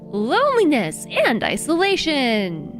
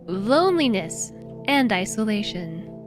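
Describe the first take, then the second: First: It is said excitedly, like an exclamation. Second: It is said flatly, without excitement.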